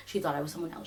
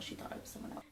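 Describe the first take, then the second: First: Self-reassurance. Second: Soundless whisper of self-comfort; whispered to herself. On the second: Telling herself the woman was mistaken, a whisper. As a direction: whisper it to convince yourself. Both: Real, not acted. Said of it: "I'm just gonna tell myself that".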